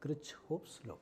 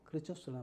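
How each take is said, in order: First: The name is said in full, 'hoff' included. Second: The name is shortened, with 'hoff' dropped. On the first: This is the way listeners may prefer to say it. "നിങ്ങൾ വേണമെങ്കിൽ കിർച്ച്ഹോഫ്സ് നോക്കാം" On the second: This is the habitual way the speaker learned it. "ഞാൻ ഉച്ചരിക്കുന്നത് കിർച്ചോസ് എന്നാണ്"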